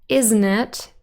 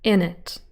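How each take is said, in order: First: The phrase is said with all its sounds. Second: The middle sounds are dropped and reduced.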